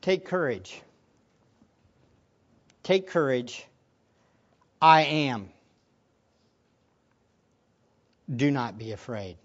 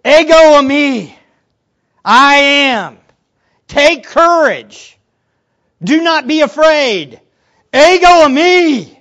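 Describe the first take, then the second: First: Low, soft, measured reassurance; words of Jesus. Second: Loud, high, drawn-out proclamation; emphatic. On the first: Jesus to frightened disciples, quietly reassuring. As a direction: say it quietly, with long pauses. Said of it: "then comes these words from Jesus". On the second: Jesus to frightened disciples, emphatically proclaiming. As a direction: thunder each short phrase separately and slowly. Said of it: "This is emphatic". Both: Acted.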